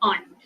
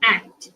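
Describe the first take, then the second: First: It is said with a British pronunciation. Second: It is said with an American pronunciation. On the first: "sorry, British pronunciation, aunt" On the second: "in American English, they pronounce it as aunt"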